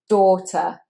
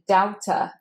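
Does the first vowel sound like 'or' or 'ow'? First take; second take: or; ow. First: The first vowel sounds like 'or'. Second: The first vowel sounds like 'ow'. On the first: The speaker calls it right. "it's the same sound as in horse and bought and caught. It's or" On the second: The speaker calls it wrong. "daughter is often said as daughter, as you might want to look at that A U and think that looks like ow"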